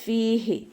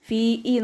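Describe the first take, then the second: First: The middle h sound is clearly pronounced. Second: The middle h sound is dropped. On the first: The speaker calls it right. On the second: The speaker calls it wrong.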